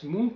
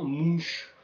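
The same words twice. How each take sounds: First: The name is said with a Scandinavian pronunciation. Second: The name is said with a French pronunciation. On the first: "je le prononce Munch, c'est la prononciation scandinave" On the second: "qui est la prononciation française en fait de son nom"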